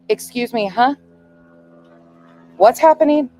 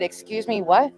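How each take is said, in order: First: Climbing higher and louder with each word; alarmed mother demanding answers; "What's happening?" nearly shouted; rising panic. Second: Puzzled first reaction, mother on the phone; stunned disbelief. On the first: Mother panics at bad news. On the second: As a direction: caught off guard, not yet grasping it. Hearing daughter was run over. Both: Retold or imitated.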